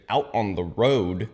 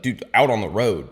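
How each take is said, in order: First: OUT ON THE ROAD slowly spelled out; retold emphatic repeat. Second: OUT ON THE ROAD said quickly with a louder push; retold "road" with a falling end; retold insistence. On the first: Buddy repeating himself after "What?", slow and emphatic. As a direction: stretch "Out on the road" word by word. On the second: Buddy telling him where he heard it, insistent. Buddy repeats himself after disbelief.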